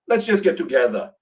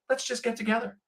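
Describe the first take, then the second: First: It is said with a heavy Austrian accent. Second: It is said in the speaker's normal accent.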